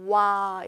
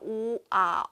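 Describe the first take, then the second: First: The two vowels glide together into one sound. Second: The two vowels are said as separate sounds. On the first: "와 이렇게 되고" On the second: "오하고 야해서 오아"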